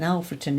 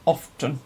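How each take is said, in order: First: All three syllables are said in full. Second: It is clipped gruffly into two syllables.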